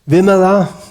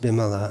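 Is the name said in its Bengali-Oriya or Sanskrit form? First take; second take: Sanskrit; Bengali-Oriya. First: The name is said in standard Sanskrit pronunciation. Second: The name is said in Bengali-Oriya pronunciation. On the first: "in standard Sanskrit pronunciation" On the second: "Bimala is pronounced Bimala"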